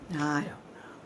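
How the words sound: It sounds indifferent and uncaring.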